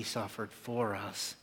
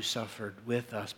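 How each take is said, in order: First: "for" stressed, slow and deliberate. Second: "with" stressed against what follows. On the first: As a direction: lean slowly on the word "for". Contrasts "for" against "with. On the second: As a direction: lean on the word "with". Contrasts "with" against "for. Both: Real, not acted.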